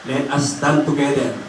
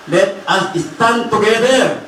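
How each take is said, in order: First: Said in the usual way. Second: Higher, slow, drawn-out exhortation; rally the congregation to stand; rallying call. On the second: Real, not acted. (mabagal at madiing panawagan)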